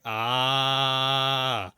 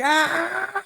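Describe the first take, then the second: First: The scream is weak and low in energy. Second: The scream is loud and highly intense. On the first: The speaker calls it wrong. "they weren't very high intensity" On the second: The speaker calls it right. "Instead of like"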